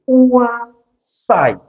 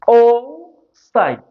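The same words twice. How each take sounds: First: It is said with its usual standard pronunciation. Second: It is sounded out to follow its spelling. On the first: "The correct pronunciation for this is oocyte" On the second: "Why am I calling it oocyte? It can help you with the spelling"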